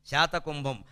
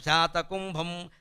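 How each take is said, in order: First: Said in the usual way. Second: శాతకుంభం said slowly, syllable by syllable; teacherly slow శాతకుంభం for the class; slow spelled-out name. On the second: Shown as a demonstration. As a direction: draw out శాతకుంభం slowly, every syllable clear. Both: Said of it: "ఇవన్నీ బంగారానికి పేర్లు".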